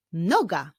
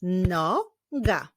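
First: Said in the usual way. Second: NOGA split into NO, pause, GA; measured NO... GA; syllable by syllable. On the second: Shown as a demonstration. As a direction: clap out "noga" in two beats. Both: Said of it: "Wyklaszczmy sylaby w tych wyrazach".

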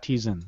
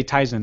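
First: "Tizen" said TEE-zen; "Tizen" mispronounced, first syllable rhyming with "me"; wrong pronunciation. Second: "Tizen" said TIE-zen; "Tizen" with first syllable rhyming with "my"; correct pronunciation. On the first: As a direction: say "Tizen" with an ee, as in tea. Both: Shown as a demonstration. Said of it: "saying it wrong".

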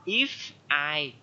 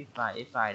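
First: "if", a clear break, then "I"; unlinked, wrong reading. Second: "if I" run together as i-fai; soft, joined-up "if I", no gap; linked pronunciation. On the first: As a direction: split "if I" into two separate words. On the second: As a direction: link the f of "if" onto "I". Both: Shown as a demonstration. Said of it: "Đừng có đọc là".

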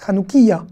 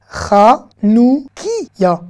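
First: Said in the usual way. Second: Chanoukiya drawn out very slowly, guttural ch; Chanoukiya, stretched and clear; slow model word. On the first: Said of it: "Chanoukiya, c'est le chandelier". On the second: Shown as a demonstration. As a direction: spell it out with your voice, each syllable. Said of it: "On a rajouté un yud".

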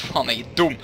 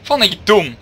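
First: Said in the usual way. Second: Frustrated shout at himself; angry. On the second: Real, not acted. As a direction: yell it, annoyed. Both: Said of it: "repeats shouted".

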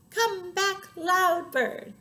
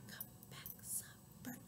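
First: High, loud singsong. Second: Barely audible whisper; soft. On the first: Calling the loud bird back, loud chant. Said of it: "the other named Loud". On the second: Calling the soft bird back, tiny whisper. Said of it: "One named Soft". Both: Shown as a demonstration.

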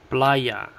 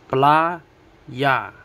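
First: Said in the usual way. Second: Playa broken into PLA, pause, YA; split into syllables. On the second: Shown as a demonstration. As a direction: say playa one syllable at a time. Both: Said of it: "two syllables".

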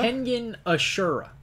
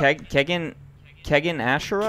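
First: Kengan with a clear n, Ashura as uh-SHOO-ra, falling; high, deliberate Kengan, then uh-SHOO-ra; correct pronunciation. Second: Kengan without its n, like KEG-in, Ashura questioning; unsure KEG-in ASH-ura, rising at the end of Ashura; mispronounced attempt. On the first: Shown as a demonstration. Co-host correcting the American host, modelling Kengan Ashura properly. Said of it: "Can you just say it correctly?". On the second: Real, not acted. American host trying the title Kengan Ashura, mispronouncing it. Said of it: "You are purposely saying it wrong".

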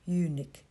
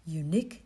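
First: "unique" wrongly accented on the first syllable; stress on first syllable. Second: "unique" with the accent on the second syllable; stress on second syllable. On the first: Priest showing his slip that sounded like eunuch, stress on first syllable. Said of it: "đặt lên âm thứ nhất". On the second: Priest explaining his slip, stress on second syllable. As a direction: say "unique" rising onto its last syllable. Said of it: "dấu nhấn ở âm thứ nhì". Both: Shown as a demonstration.

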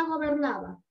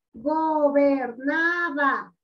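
First: Said in the usual way. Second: "gobernaba" very slow, split into four syllables. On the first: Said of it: "¿Dónde va gobernaba?". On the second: Shown as a demonstration. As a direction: stretch and separate each syllable of "gobernaba". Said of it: "Ese es el silabeo".

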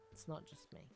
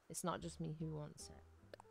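First: Voiceless whispered repeat; whispered aside. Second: Said in the usual way. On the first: Real, not acted. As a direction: whisper it to yourself as an afterthought. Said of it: "repeat of line 111". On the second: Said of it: "repeats it voiceless".

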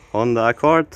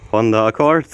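Both takes have the same delivery.

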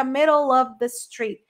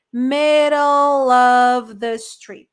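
First: "middle of" run together, the L flowing into "of"; linked pronunciation. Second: Very slow, drawn-out "Middle of the street", L linked into "of"; stretched linking demo. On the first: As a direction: say "middle of the street" with the L linking into "of". ("middle of" ligado, o L emendando no "of") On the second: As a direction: stretch it out so they hear the link. ("Middle of the street" bem lento e alongado) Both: Shown as a demonstration. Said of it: "o som do L emenda no O do of".

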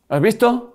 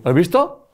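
First: "¿Has visto?" lifted much higher, eager; "¿Has visto?" pushed up in pitch, knowing; pitch rise. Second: Said in the usual way. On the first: Shown as a demonstration. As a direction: ask "¿Has visto?" again, higher and more insistent.

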